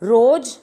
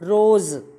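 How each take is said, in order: First: The word ends with a j sound. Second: The word ends with a z sound.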